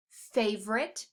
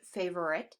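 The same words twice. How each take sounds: First: Said in the usual way. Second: FAVORITE with the middle syllable sounded, "FAY-ver-it"; alternative pronunciation. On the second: Shown as a demonstration. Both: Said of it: "I also pronounce it favorite".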